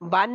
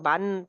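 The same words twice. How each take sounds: First: The final n sound is hidden and nasalized. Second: The final n sound is pronounced clearly. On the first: The speaker calls it wrong. "बन नहीं पढ़ना" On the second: The speaker calls it right. "ये बिल्कुल जाहिर है"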